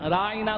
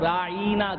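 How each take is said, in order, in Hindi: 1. शब्द सादगी से बोला गया है, बिना किसी विकृति के। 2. शब्द जीभ को मोड़कर बोला गया है।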